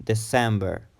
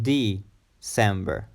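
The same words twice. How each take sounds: First: December with a short, weak first syllable, di-SEM-ber; correct reduced vowel. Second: December split off with a long DEE at the start; wrong first vowel. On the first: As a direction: say "December" with a light di before stressed SEM. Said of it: "It's not December". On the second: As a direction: mispronounce "December" slowly as DEE-cember. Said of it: "It's not". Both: Shown as a demonstration.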